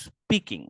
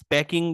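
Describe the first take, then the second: First: The first vowel sounds like 'ee' in 'see'. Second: The first vowel sounds like 'a' in 'cat'. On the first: The speaker calls it right. "ধরেন এটা হচ্ছে স্পিকিং, ওরা এরকম বলে।" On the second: The speaker calls it wrong. "এটাকে যদি আপনি স্প্যাকিং বলেন তাহলে আপনার হচ্ছে ভুল ধরবে"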